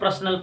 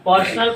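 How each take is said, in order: First: The first syllable sounds like 'pra'. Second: The first syllable sounds like 'per'. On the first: The speaker calls it wrong. "जो कि गलत है प्रा नहीं" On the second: The speaker calls it right. "पर निकालना है"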